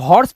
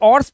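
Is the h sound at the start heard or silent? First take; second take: heard; silent. First: The word starts with a clear h sound. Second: The word starts without an h sound. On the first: The speaker calls it right. "इसे तो हॉर्स पढ़ते हैं। ... But silent तो नहीं है" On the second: The speaker calls it wrong. "अब इसे क्या ऑर्स पढ़ेंगे?"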